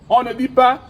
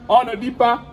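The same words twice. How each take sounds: The two takes are said the same way.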